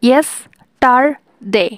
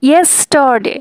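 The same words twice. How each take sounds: First: yesterday said very slowly in three parts; syllables drawn out. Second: Said in the usual way. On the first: Shown as a demonstration. Teacher counting syllables for students, slow. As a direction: pull yesterday apart slowly. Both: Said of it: "three syllable".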